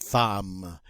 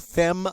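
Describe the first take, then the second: First: The vowel is an 'a' sound, as in 'fam'. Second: The vowel is an 'e' sound, as in 'fem'. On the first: The speaker calls it right. "we say femme" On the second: The speaker calls it wrong. "We don't say fem"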